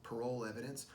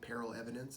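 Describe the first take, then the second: First: The first word sounds like 'parole'. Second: The first word sounds like 'peril'. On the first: This is the speaker's own way of saying it. "I pronounce it parole evidence" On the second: This is how some other people say it. "Some people say peril evidence"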